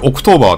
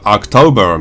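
First: The first vowel sounds like 'oh'. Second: The first vowel sounds like 'ah'. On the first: The speaker calls it wrong. "これオクトーバーってすごい発音したくなるんですけど" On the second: The speaker calls it right. "実際はアクトーバーみたいな感じで、あに近いおの方"

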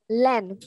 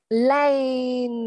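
First: The word is said quickly and clipped. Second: The word is said slowly and drawn out. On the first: "Đọc nhanh này" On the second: "khi chúng ta đọc chậm thì là sẽ là lane"

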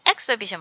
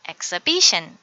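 First: The stress falls away from the syllable before -tion. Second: The stress falls on the syllable before -tion. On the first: The speaker calls it wrong. "exhibition 뭐 이렇게 하면 안 되고요" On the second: The speaker calls it right. "션 앞에 강세가 있으니까 ... exhibition 이렇게 해주세요"

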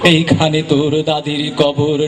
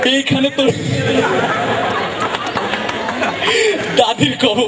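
First: It is recited in a calm, polished manner. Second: It is said while laughing and breaking off. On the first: The speaker calls it right. "একদম professional" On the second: The speaker calls it wrong. "সে একটু হাসে বেশি"

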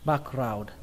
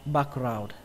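No difference in how they are said.

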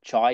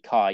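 First: It starts with a 'ch' sound like chai. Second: It does not start with a 'ch' sound. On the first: The speaker calls it wrong. "as in like chai latte" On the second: The speaker calls it right. "but you say chi"

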